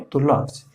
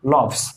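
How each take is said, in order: First: लव्स said the correct way, ending in a voiced z sound; correct pronunciation. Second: लव्स said the common wrong way, with a plain s sound at the end; wrong pronunciation. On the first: Teacher shows students the right form: लव्स ending in z. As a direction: end लव्स on a buzzing z, not an s. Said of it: "क्या सही उच्चारण है". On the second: Teacher shows students the mistake: लव्स with an s ending. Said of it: "ये भी आप गलत पढ़ते थे". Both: Shown as a demonstration.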